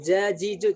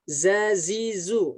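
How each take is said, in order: First: Each syllable begins with a j sound. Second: Each syllable begins with a z sound. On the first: The speaker's regional accent is carried into the recitation. The speaker calls it wrong. "Misalkan jajiju, nggak boleh" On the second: The regional accent is kept out of the recitation. The speaker calls it right. "tapi za, za. Zazizu seperti itu"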